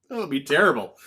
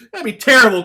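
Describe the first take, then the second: First: Said in the usual way. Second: Higher, louder mock outrage; exclaiming loudly. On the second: Shown as a demonstration. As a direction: burst out at Caleb.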